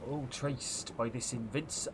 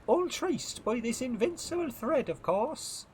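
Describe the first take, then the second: First: Said in the usual way. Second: Put-on very high-pitched accented first mate; girl's character voice. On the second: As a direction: pitch it way up for the girl. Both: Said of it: "oh, I'm a girl".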